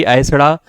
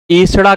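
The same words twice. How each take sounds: First: ऐसड़ा begun with a gliding "a-e"; wrong "ai" opening. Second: एसड़ा begun with a pure "e"; correct "e" opening. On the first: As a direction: start ऐसड़ा on the diphthong "ai". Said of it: "ना कि ऐसड़ा". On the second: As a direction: start एसड़ा on a steady "e" without gliding. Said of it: "एसड़ा कहा जाता है". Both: Shown as a demonstration.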